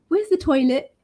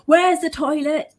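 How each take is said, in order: First: The tone is soft and slightly embarrassed. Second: The tone is direct and demanding. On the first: The speaker is asking politely. The speaker calls it right. "make sure that your tone is nice and soft" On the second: The speaker insists on being told. The speaker calls it wrong. "Instead of directly, ... And demanding to know where it is"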